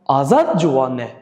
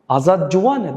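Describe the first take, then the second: First: The stress falls on the word Azad. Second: The stress falls on the word juwane. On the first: It asks whether this particular person is the young one. "you ask whether Azad is young" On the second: It asks whether the person is young. "the stress is on Juwan young"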